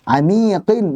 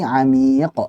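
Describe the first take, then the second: First: The word ends with a final -in sound. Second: The word ends on a bare consonant. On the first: The reading continues past this word. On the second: The reading stops on this word.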